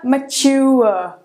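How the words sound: It is said with a British accent.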